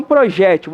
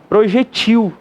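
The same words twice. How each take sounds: First: Projétil stressed on JÉ, pro-JÉ-til. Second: Projetil stressed on its last syllable; stress on final TIL. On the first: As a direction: punch the JÉ of projétil. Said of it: "você pode acentuar o G". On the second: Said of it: "transformar numa palavra oxítona". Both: Shown as a demonstration.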